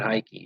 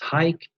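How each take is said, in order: First: The word ends with an extra 'ee' vowel. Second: The word ends with no extra vowel. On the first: The speaker calls it wrong. "it's not hikey" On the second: The speaker calls it right. "it's Hike"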